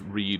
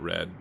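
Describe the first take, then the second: First: The vowel is long, rhyming with 'reed'. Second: The vowel is short, rhyming with 'red'. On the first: He still reads it now. The speaker calls it right. "I think that's read" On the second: He read it in the past. The speaker calls it wrong. "and not read"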